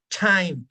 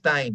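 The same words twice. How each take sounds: First: The T is explosive, with a strong puff of air. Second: The T is soft, with no puff of air. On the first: The speaker calls it right. "Es explosivo" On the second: The speaker calls it wrong. "no es time"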